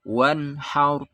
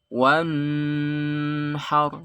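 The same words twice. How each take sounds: First: The n sound is clear and short. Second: The n sound is held and drawn out. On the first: The speaker calls it right. "Harus jelas dan tidak boleh lama-lama" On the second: The speaker calls it wrong. "Atau dilama-lamakan"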